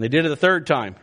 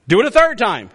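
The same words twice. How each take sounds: First: Said in the usual way. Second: Raised, emphatic order; commanding. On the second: Acted. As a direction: order it done, voice lifted. Prophet's command versus its narration.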